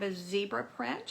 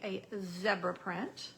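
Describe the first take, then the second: First: It is said in an American accent. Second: It is said in a British accent.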